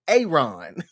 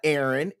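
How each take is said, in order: First: The first vowel is a long A. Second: The first vowel is not a long A. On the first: The speaker calls it right. "It's the long A" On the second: The speaker calls it wrong. "it's not Aaron"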